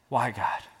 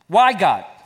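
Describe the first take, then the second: First: It is said in a humble, searching tone. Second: It is said in an angry, defiant tone.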